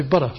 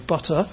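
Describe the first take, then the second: First: Butter in American English, flapped T; American butter with a quick tongue tap for the T; American accent. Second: Butter in British English, crisp T; British butter with a fully released T. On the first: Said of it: "but they would say butter". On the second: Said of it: "in British English we would say". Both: Shown as a demonstration.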